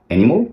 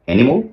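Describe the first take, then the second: First: The last syllable sounds like mol. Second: The same.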